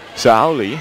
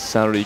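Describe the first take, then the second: First: The middle consonant sounds like an English L. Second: The middle consonant sounds like an English R. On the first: The speaker calls it right. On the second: The speaker calls it wrong.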